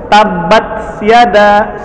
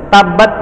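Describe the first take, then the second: First: Tabat said slowly with no breath after t; wrong unaspirated tabat. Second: Tabat with breath released after the t; aspirated tabat. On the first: Teacher demonstrating the common mistake, slow and unaspirated. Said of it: "Nggak begitu bacanya". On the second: Teacher showing students the correct breathy tabat. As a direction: let breath out at the end of Tabat. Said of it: "nafasnya keluar". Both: Shown as a demonstration.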